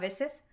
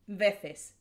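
First: The c is pronounced like s. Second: The c is pronounced like th. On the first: This is how some places in Latin America say it. "they say it as if it was an S" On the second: This is how most of Spain says it. "like with a lisp"

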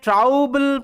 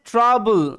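First: The first vowel is an 'ow' diphthong. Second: The first vowel is a short 'uh' sound. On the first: The speaker calls it wrong. "এখানে ট্রাউবল পড়ছি না" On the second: The speaker calls it right. "এখানে ও ইউর উচ্চারণটা আবার আ হচ্ছে"

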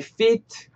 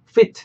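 First: The vowel is drawn out and long. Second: The vowel is clipped and short. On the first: It clearly means more than one foot. The speaker calls it right. "조금 더 길게 발음해 주셨으면 좋겠어요" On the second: It sounds like the word meaning to suit in size. The speaker calls it wrong. "너무 이렇게 짧게는 안 하셨으면 좋겠어요"

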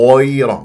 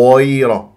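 Both takes have the same delivery.

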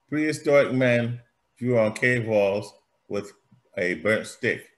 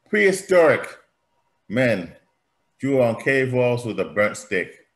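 First: The word prehistoric is said without special emphasis. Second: The word prehistoric is said with strong emphasis.

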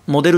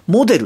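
First: It has the casual everyday pitch pattern. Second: It has the announcers' standard pitch pattern. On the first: "モデルって言うけど" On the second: "アナウンサーの方たち見てると、モデルって言ってるの"

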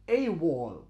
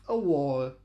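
First: The word 'a' is a full 'ay' sound. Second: The word 'a' is a weak 'uh' sound. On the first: The article is emphasized. "wenn wir das Wort betonen wollen, ... dann sagen wir" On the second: The article is used normally, without emphasis. "Wir werden also das Ö normalerweise mit einem sogenannten Schwa aussprechen"

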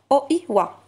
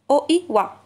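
Both takes have the same delivery.

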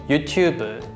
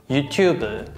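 Both takes have the same delivery.

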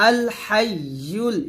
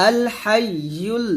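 The two takes are said the same way.

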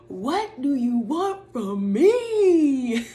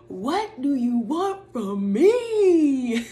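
First: It is said in an imitated put-on voice. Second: The same.

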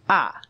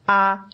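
First: The pitch falls sharply from high. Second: The pitch stays high and level.

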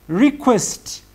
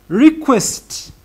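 The two takes are said the same way.

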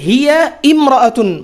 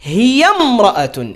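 First: The initial i of imra'atun is pronounced separately. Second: The initial i is dropped and the words join. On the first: The speaker calls it wrong. "হিয়া ইমরাআতুন বললে ভুল হবে" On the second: The speaker calls it right. "শুরুর এই হামজাটা, আলিফটা, এটা উচ্চারণে আসবে না"

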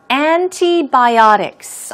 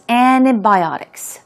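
First: The T sound is clearly pronounced. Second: The T sound is barely heard.

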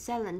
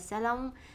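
First: The word is said with a British pronunciation. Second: The word is said the Vietnamese way. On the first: "đó là cách phát âm của British English" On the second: "Tiếng Việt mình hay gọi là salon"

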